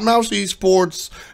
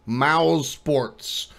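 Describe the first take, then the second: First: An extra 'e' sound comes before 'sports'. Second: 'Sports' is said with no extra sound before it. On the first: The speaker calls it wrong. "not Mouse Esports" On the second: The speaker calls it right. "That's how it's pronounced"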